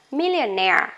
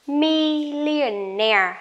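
First: Millionaire at normal speed, stress on -naire; normal speed word. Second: Millionaire said slowly, syllable by syllable, stress on -naire; slow model word. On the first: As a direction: say Millionaire at natural pace. (đọc Millionaire tốc độ bình thường) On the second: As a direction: stretch out Millionaire like a teacher. (đọc chậm, rõ từng âm tiết Millionaire) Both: Shown as a demonstration. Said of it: "Lại nhá".

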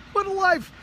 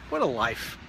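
First: What a life in a much higher squeaky mock voice; mock duck voice. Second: Said in the usual way. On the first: Repeat voicing the ducks.

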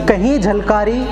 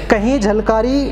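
The two takes are said the same way.

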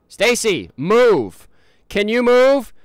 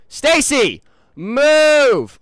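First: Loud call to move. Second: Higher, louder frustrated yell; angry shout. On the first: To Stacy blocking the way, a loud order. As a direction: shout her name to get going. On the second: To Stacy still not moving, a louder furious shout. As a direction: bellow the order now fed up. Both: Real, not acted.

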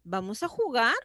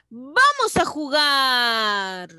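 First: Pregunta rápida, JUGAR sube al final. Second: VAMOS enérgico, JUGAR muy alargado y descendente; exclamación. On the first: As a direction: di «vamos a jugar» ligero, levantando el final. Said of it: "¿Con pregunta?". (pregunta ágil con final ascendente) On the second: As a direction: exclama lento, estirando «jugar». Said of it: "Esa es exclamativa". (exclamación efusiva, alargando el final) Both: Shown as a demonstration.

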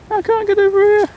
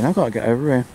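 First: Much higher and louder squeaky whine; high mock squeal. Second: Said in the usual way. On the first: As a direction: squeal it like a cartoon. Repeats line, second take squeaked.

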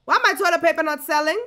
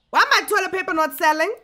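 No difference in how they are said.

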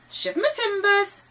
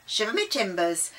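First: High-pitched, loud bird squawk; loud squawking parrot. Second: Put-on old sea salt at a normal pitch; Davy. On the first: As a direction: cry out as the pirate's parrot. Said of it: "the voice repeated". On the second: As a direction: exclaim it as an old sailor. Davy says the parrot's phrase. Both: A narrator's reading.

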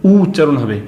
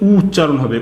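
Both takes have the same delivery.

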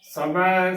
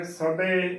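First: ਸਭੈ with an open, drawn-out ai; careful ਸਭੈ ending in ai; correct ai ending. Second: ਸਭੇ with a close ay at the end; demonstrated mistake, ਸਭੇ ending in e; wrong e ending. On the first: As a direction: open the last vowel of ਸਭੈ wide. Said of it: "ਸਹੀ ਉਚਾਰਨ ਹੈ". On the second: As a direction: narrow the last vowel of ਸਭੇ. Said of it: "ਗਲਤ ਉਚਾਰਨ ਹੈ". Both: Shown as a demonstration.

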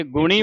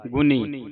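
First: ਗੁਣੀ with retroflex ṇ; retroflex N, wrong take. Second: ਗੁਣੀ said as "guni" with dental n. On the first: Teacher warns against the naana sound, retroflex N. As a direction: curl the tongue back for the N of ਗੁਣੀ. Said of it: "ਨਾਣੇ ਦੀ ਆਵਾਜ਼ ਉਚਾਰਨ ਹੋਵੇਗੀ". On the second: Teacher spells it with nanna, dental N. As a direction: say ਗੁਣੀ with the tongue tip forward on the N. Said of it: "ਗੱਗੇ ਔਂਕੜ ਨੰਨੇ ਬਿਹਾਰੀ". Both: Shown as a demonstration.

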